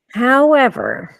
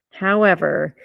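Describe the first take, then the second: First: "However" higher, louder and slow, leaned on; stressed however. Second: Said in the usual way. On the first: Shown as a demonstration. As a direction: land hard on "However" then pause. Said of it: "stressed repeat of however". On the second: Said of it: "plain repeat of however".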